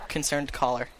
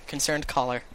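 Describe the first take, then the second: Both takes have the same delivery.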